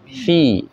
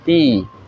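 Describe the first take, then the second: First: The word begins with an f sound. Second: The word begins with a p sound. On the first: The speaker calls it right. "bukan pi tapi fi" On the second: The speaker calls it wrong. "bukan pi"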